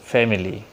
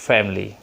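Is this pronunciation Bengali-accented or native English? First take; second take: Bengali-accented; native English. First: It is pronounced with a Bengali accent. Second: It is pronounced with a native English accent. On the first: The speaker calls it wrong. "generally আমরা বলছি" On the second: The speaker calls it right. "the real pronunciation of the native speakers say"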